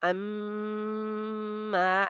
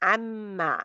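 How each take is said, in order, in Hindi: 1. नाक वाली m ध्वनि लंबी खींची जाती है। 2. नाक वाली m ध्वनि बस थोड़ी देर के लिए बोली जाती है। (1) "ऐसे नहीं करना क्योंकि ये तो बहुत लंबी मिकदार हो गई ना" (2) "बस"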